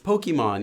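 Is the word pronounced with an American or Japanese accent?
American. The word is pronounced with an American accent. "but it's Pokemon, you know, Poke"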